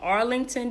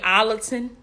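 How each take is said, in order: First: Each syllable is said carefully and fully. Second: It is said in the relaxed local Georgia way.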